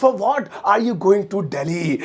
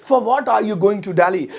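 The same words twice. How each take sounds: First: Very slow and a bit softer; stretched out; slower, softer repeat. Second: Slow, clear English; teacher modelling the sentence; spaced-out words; slow model sentence. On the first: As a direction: drill it for the class. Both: Shown as a demonstration. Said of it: "तुम किस लिए दिल्ली जा रहे हो".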